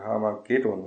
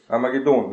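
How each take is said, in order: First: Harmagedon said the casual German way, off the final-syllable stress; slipped German pronunciation. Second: Harmagedon with a firm stress on the final DON; Harmagedon, punched on its ending -don; stress on last syllable. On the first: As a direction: toss off Harmagedon quickly, without punching the last syllable. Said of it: "man ausrutscht auf diese Aussprache". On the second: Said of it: "Die Betonung auf der letzten Silbe". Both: Shown as a demonstration.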